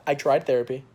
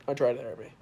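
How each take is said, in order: First: Louder, insisting; emphatic. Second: Said in the usual way. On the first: Real, not acted. Son insisting he tried therapy with his mom, emphatic.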